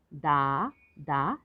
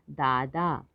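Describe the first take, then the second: First: दादा slowly split as दा, दा; syllable by syllable. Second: Said in the usual way. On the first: Shown as a demonstration. Teacher sounding out दादा for learners, syllable by syllable. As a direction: stretch दादा into separate syllables. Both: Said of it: "तो शब्द पढ़ते हैं".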